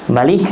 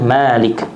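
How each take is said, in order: First: The vowel after the m is short. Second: The vowel after the m is long. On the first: "Ada yang pendek, mimnya satu harokat" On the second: "dan ada yang panjang, mimnya dua harokat"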